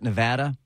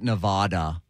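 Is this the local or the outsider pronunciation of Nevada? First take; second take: local; outsider. First: It is said the way residents pronounce it. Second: It is said the way outsiders pronounce it. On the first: The speaker has lived in the state. The speaker calls it right. "Anybody who lives in Nevada, who has ever lived in Nevada, pronounces it Nevada" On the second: The speaker has never been to the state. The speaker calls it wrong. "Anyone who's never stepped foot in Nevada calls it Nevada"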